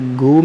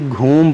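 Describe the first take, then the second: First: The first consonant is a plain g sound. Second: The first consonant is an aspirated gh sound. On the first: The speaker calls it wrong. "ये घूम नहीं पढ़ेंगे" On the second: The speaker calls it right. "बल्कि घूम पढ़ेंगे"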